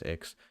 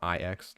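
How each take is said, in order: First: The name is said as a single word. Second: The name is spelled out as two letters. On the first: "but I think it's Ix" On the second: "like the Roman numerals"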